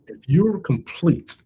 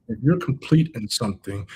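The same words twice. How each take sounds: First: If you're complete, drawn out slowly and pitched up, stress on complete; slow emphasis. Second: Said in the usual way. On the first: Shown as a demonstration. Coach stresses the key phrase.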